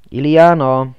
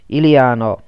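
First: Loud call of her name. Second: Loud call, falling at the end; calling again. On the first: Man searching the dark rooms, loud call. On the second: Man still searching the dark, loud call. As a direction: call once more, falling off. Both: A narrator's reading.

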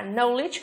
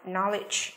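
First: Knowledge with a long OH, like "know-ledge"; wrong "know" vowel. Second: Knowledge with a short open O, "NOL-ij"; correct short vowel. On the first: Teacher warning pupils off a wrong reading, knowledge with OH. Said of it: "không được phát âm là knowledge". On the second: Teacher giving pupils the right reading, Knowledge with short O. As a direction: say Knowledge as nol-ij, not know-ledge. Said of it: "mà phải là gì nào?". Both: Shown as a demonstration.

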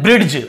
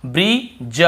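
First: ब्रिड्ज with a hard retroflex d before the j; wrong d sound. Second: ब्रिज said slowly as brij with no d; silent d. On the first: Teacher showing students the wrong ब्रिड्ज. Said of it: "ड ऐसे पढ़ देते हैं". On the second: Teacher modelling the right ब्रिज slowly. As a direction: draw out ब्रिज, dropping the ड. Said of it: "डी को नहीं पढ़ना". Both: Shown as a demonstration.

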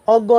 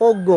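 First: অজ্ঞ starting on an open "aw", "awggo"; wrong pronunciation. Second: অজ্ঞ starting on a closed o, "oggo"; correct pronunciation. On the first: Teacher shows what not to say, অজ্ঞ mispronounced "awggo". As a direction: open up the first vowel of অজ্ঞ. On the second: Teacher answers the question, অজ্ঞ pronounced "oggo". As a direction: round the first vowel of অজ্ঞ to o. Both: Shown as a demonstration. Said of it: "না বলে বলবো কি".

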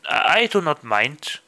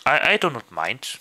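No difference in how they are said.

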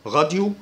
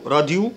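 First: غاديو, opening like Arabic غ; French R. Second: راديو, plain front r, not throaty; English-style R. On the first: Teacher offering two pronunciations, French R in غاديو. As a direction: say غاديو with a uvular French r first. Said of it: "ال R بالفرنساوي". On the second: Teacher offering the other option, front R in راديو. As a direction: say راديو with the r made at the tongue tip. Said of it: "ال R بالإنجليزي". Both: Shown as a demonstration.

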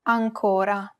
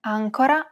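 First: Ancora with a long stressed CO; stress on middle syllable. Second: Ancora with the first syllable AN stressed. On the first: Host shows two look-alike words, long stressed CO in ancora. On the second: Host shows two look-alike words, stress on AN in Ancora. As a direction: say Ancora leaning on AN, rest light. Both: Shown as a demonstration. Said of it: "distinguish between two words".

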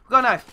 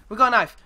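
No difference in how they are said.

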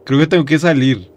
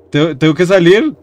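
First: Said in the usual way. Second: "salir" rising sharply as a question; alarmed question. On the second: Real, not acted. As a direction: end high on "salir", in disbelief. Same words turned into alarmed question. (pregunta con "salir" subiendo al final)

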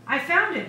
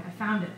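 First: Put-on high, loud protest from a boy; yelling. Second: Said in the usual way. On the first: A narrator's reading. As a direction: yell it as a child defending a find. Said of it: "yelled the boy".

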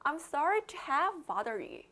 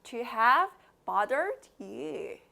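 First: Connected phrase at a quicker practice pace. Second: Slow model phrase with wide-open vowels; slow, wide-mouthed. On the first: Teacher repeats the practice phrase for learners, quicker and connected. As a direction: run the words together a little faster. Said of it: "조금 더 빨리 해볼까요?". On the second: Teacher models the phrase for learners to repeat, slow and wide-mouthed. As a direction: stretch each word out, mouth opened wide. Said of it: "입 크게 벌리시고 따라해주세요". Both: Shown as a demonstration.

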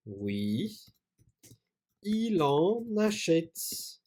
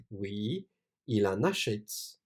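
First: Slow dictation. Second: Said in the usual way. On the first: Shown as a demonstration.

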